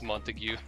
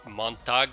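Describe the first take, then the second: First: The name ends in a drawn-out 'tyoo' sound. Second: The name ends in a short 'tag' sound. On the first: The speaker calls it right. "I'm pretty sure it's Montague" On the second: The speaker calls it wrong. "I used to say Montag"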